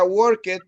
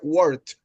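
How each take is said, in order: First: The ending is said as an extra syllable. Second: The ending is said as a plain t. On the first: The speaker calls it wrong. "yo no diría worked" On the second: The speaker calls it right. "La pronunciación de la ed es como T en ese caso"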